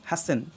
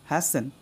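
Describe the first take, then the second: First: The T sound is silent in the middle. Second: The same.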